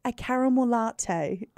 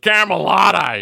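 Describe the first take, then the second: First: Put-on slow, softer North Shore accent. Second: Put-on loud, high, drawn-out bogan Dubbo accent; hammed-up broad Dubbo bogan. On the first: Friend tries ordering for the waitress, North Shore accent. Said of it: "different accent came out". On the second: Host mocks what the waitress heard, hammed-up bogan accent. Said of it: "the Bogan, uh, Dubbo accent".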